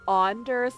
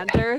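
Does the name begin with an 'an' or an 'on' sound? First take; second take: on; an. First: The name begins with a hard 'on' sound. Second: The name begins with a plain 'an' sound. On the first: The speaker calls it right. "it's a hard on and you have to say it with a hard on" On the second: The speaker calls it wrong.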